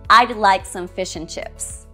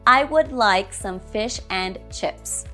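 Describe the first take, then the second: First: 'Would' is shortened to just a 'd' sound. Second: 'Would' is said in its full, strong form. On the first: The speaker calls it right. "we can use weaker forms sometimes" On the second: The speaker calls it wrong. "Strong form"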